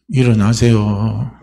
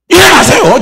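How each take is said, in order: First: It is said softly and weakly. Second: It is said loudly and urgently.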